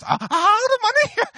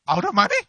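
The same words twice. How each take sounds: First: Very high falsetto squeak of panic; voice up three octaves. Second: Squeaky panic. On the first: Pastor mocking his own panic on the phone, falsetto squeal. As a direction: shoot way up into a disbelieving squeal. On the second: Pastor retelling his shock at the phone call, high squeak. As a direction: voice jumps up high in alarm. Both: Retold or imitated. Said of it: "my voice went up three octaves".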